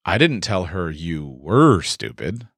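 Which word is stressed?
were. The stress is on were.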